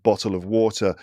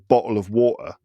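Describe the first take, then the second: First: It is said in a British accent. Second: It is said in a London accent. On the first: "in England or in the U K, it would be like" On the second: "some people in in in England, like in London, might say"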